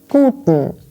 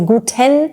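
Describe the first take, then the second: First: The vowel between T and N is dropped. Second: The vowel between T and N is clearly pronounced. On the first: The speaker calls it right. "We just say Guten" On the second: The speaker calls it wrong. "We don't say Guten Tag, so we don't quite pronounce the E between T and N"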